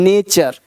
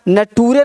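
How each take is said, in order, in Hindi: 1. बीच का व्यंजन 'ch' की आवाज़ है। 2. बीच का व्यंजन सादा 't' की आवाज़ है। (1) "नेचर है ना" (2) "नटूरे नहीं बोलेंगे"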